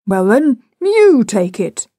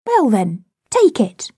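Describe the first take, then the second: First: "you" drawn out, high and loud; stress on "you". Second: Put-on high-ended child's challenge; daring child. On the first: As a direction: throw it back, leaning hard on "you". Father turns the dare back. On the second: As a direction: dare him, lifting "take it" high. Child dares father to take it. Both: A narrator's reading.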